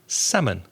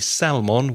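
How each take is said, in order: First: The L sound is silent. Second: The L sound is pronounced. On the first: The speaker calls it right. "it is actually silent" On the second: The speaker calls it wrong. "the temptation is to pronounce that L"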